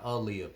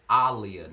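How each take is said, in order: First: The name does not begin like 'Ali'. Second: The name begins with a sound like 'Ali'. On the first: The speaker calls it wrong. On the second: The speaker calls it right. "her name is pronounced [name]"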